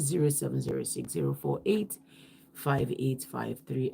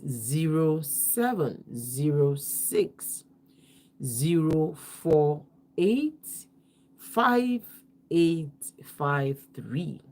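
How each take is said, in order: First: The numbers are read quickly. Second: The numbers are read slowly.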